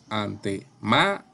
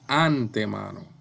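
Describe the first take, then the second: First: The stress falls on the third syllable, ma. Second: The stress falls on the first syllable, an. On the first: The speaker calls it right. "decimos ante. Ma" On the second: The speaker calls it wrong. "No decimos antemano"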